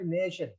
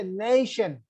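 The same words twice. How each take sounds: First: Nation softer and lower, first syllable left unstressed. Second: Nation with a strong, long first syllable; nation, weight on "na", light "tion"; stress on NA. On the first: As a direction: say nation with no weight on "na". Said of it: "not nation". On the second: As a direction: lean on the NA in nation. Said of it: "the penultimate ne should be stressed". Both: Shown as a demonstration.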